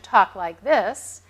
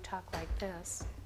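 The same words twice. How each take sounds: First: It is spoken loudly, at high volume. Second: It is spoken softly, at low volume. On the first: This is the target level. The speaker calls it right. "I want you to talk like this, ... at sixty-five decibels" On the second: This is the patient's usual habit. The speaker calls it wrong. "normally you talk like this, ... at forty-five decibels"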